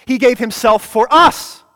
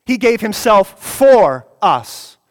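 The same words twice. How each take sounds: First: "us" lifted and louder at the end; stress on US. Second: "for" leaned on, slow and louder; He gave himself "for" us, every word weighed; stress on FOR. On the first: Preacher drilling the congregation, rising on "us". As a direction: land the rise on "us". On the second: Preacher drilling the congregation, stressing "for". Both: Shown as a demonstration. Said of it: "Emphasize every word of that".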